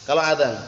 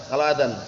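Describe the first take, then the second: No difference in how they are said.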